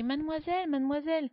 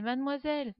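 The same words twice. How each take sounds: First: High, loud repeated call; shouting. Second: Put-on louder, higher call after a girl. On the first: Boy calling the girl in the library, loud shout. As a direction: shout her name into the dark hall. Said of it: "je crie". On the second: Boy calling after the girl he loves, loud call. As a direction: call out to her across the street. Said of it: "J'ai crié après elle". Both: A narrator's reading.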